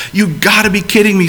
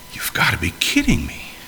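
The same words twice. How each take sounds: First: Higher, quick, disbelieving outburst; incredulous exclamation. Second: Breathy muttered whisper under his breath. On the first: Abraham reacting to God's promise, higher and quick in disbelief. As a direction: blurt it out in amazement, a bit fast. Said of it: "says Abraham". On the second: Abraham walking away, muttering to himself in a whisper. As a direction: mutter it to yourself, nearly voiceless. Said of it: "muttering to himself". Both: Retold or imitated.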